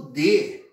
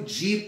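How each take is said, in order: First: It is said strongly with a full e vowel. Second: It is said weakly with the vowel like i. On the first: It is a stressed monosyllable. "monossílabo tônico, porque ele é pronunciado mais forte" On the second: It is an unstressed monosyllable. "ele já vai ser mais fraco ... como se fosse i"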